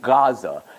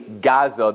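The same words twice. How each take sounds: First: The word begins with a throaty guttural sound. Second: The word begins with a hard G sound. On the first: The speaker calls it right. "It's pronounced in a different type of fashion, a guttural fashion" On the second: The speaker calls it wrong. "It's not really Gaza the way we'd say a G, like a gimel"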